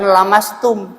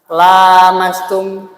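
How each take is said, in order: First: The first vowel is kept short. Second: The first vowel is held long. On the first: One person touches. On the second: Two people touch each other. "Lamnya itu panjang"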